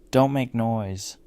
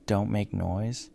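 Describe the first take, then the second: First: Slow, louder narrated shout. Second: Slow "Don't make noise" rising at the end like a question; puzzled echo. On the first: Old neighbor shouting at the narrator from her doorway, loud shout. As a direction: raise the voice on a drawn-out command. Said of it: "shouted loudly". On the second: Narrator wondering what the neighbor meant, puzzled rising echo of "Don't make noise". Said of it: "What did she mean?". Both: A narrator's reading.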